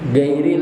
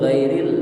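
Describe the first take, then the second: First: The word begins with a plain hard g sound. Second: The word begins with a throaty, rasping gh sound. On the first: The speaker calls it wrong. "banyak lidah kita tak bacanya gairil" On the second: The speaker calls it right. "yang bujur ghairil"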